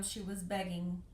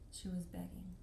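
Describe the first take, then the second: First: Said in the usual way. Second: Softer, sinking repeat; sad echo. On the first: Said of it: "the tour guide says". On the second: Real, not acted. Realizing the girl begged, soft sad repeat. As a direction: let the truth sink in quietly. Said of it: "I'm a little emotional".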